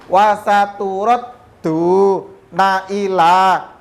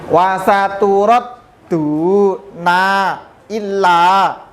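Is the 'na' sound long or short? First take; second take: short; long. First: The na is short and the l is single. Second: The na is long and the l is doubled. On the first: The speaker calls it right. "Nanya pendek langsung ke depannya tanpa ada tasdid" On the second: The speaker calls it wrong. "Nun itu biasanya kita baca panjang, kemudian lamnya ini biasanya kita tambah syiddah ... itu contoh yang keliru"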